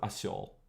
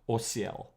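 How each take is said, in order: First: The first vowel is reduced to a. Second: The first vowel is a full o. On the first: This is how the word sounds in modern Russian. "in modern Russian" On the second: This is how the word sounded in the old period. "during this period would have been pronounced as osiel"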